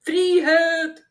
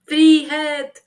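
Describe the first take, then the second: First: High, loud howl. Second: High, loud cry of freedom; prisoner's defiant shout. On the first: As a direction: howl it out like a zealot. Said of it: "hylte Tyttebær". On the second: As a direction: bellow it from the cell. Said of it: "ropte Tyttebær". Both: A narrator's reading.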